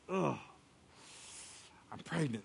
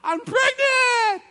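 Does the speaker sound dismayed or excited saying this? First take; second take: dismayed; excited. First: It is said in a dismayed, unhappy tone. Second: It is said in an excited, happy tone. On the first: The pregnancy is a cause for worry. "she was probably like" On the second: The pregnancy is welcome news to share. "call up all of her friends and say, guess what?"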